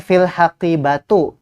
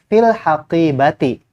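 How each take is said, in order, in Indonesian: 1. Kata terakhir berakhir dengan vokal 'u'. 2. Kata terakhir berakhir dengan vokal 'i'. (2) "yang benar"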